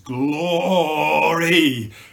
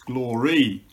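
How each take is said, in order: First: It is drawn out, rising in loudness and pitch. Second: It is said briefly in two plain syllables. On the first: "multi-syllables, in an ascending scale of decibels and pitch" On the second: "Most people articulate the word in two syllables"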